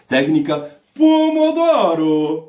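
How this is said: It is said in an exaggerated Italian accent. The speaker calls it right. "Eu tenho que falar assim ... É italiani"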